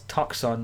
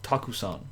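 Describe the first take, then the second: First: The u after k is devoiced, almost silent. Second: The u after k is fully voiced and audible. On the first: The speaker calls it right. "it has devoicing on that ku sound, which is why it's taksan" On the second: The speaker calls it wrong. "not takusan"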